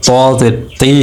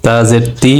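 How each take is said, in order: First: Weight the t of তি solemnly; thick heavy ti. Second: তি with a light, thin t. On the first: Teacher contrasting the heavy letter with jer, thick তি. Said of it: "একটু গম্ভীর আওয়াজে". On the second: Teacher showing the light letter with jer, thin তি. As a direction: keep the t in তি light. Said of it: "পাতলা করে পড়বে". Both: Shown as a demonstration.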